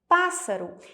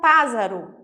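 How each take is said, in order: First: The middle consonant is a hissing S sound. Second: The middle consonant is a buzzing Z sound. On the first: The speaker calls it right. "Eu preciso colocar dois S's" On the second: The speaker calls it wrong. "senão fica pássaro"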